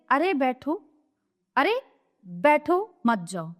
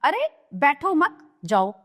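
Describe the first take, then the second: First: Slow, with मत grouped with जाओ after a pause; pause after बैठो. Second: बैठो मत together, then a break before जाओ; slow, with मत grouped with बैठो; pause after मत. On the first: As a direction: break after बैठो, then मत जाओ together. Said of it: "एक वाक्य ये हुआ". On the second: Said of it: "दूसरा". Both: Shown as a demonstration.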